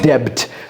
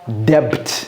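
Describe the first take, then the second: First: The b sound is silent in the word. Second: The b sound is pronounced in the word. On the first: The speaker calls it right. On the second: The speaker calls it wrong.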